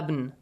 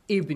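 First: The word begins with an a vowel. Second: The word begins with an i vowel. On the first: The speaker calls it wrong. "You don't say" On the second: The speaker calls it right. "you say with kasra"

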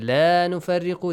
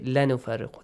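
First: The vowel in 'la' is stretched long. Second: The vowel in 'la' is cut short. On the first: We make no distinction between the prophets. The speaker calls it right. "Instead of saying la nufarriqu" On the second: We make distinction between the prophets. The speaker calls it wrong. "they say la nufarriqu"

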